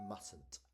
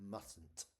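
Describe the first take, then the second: The two takes are said the same way.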